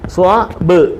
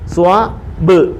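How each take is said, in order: No difference in how they are said.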